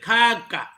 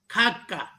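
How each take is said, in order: First: The vowels are said long. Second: The vowels are said short. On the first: It means grandparent. "algumas vogais longas, com as mesmas expressões" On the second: It refers to an animal. "exemplos de vogais breves"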